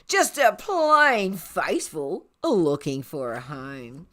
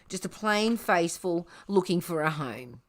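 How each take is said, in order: First: It is said in a put-on character voice. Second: It is said in the plain narrating voice. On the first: The speaker calls it right. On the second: The speaker calls it wrong.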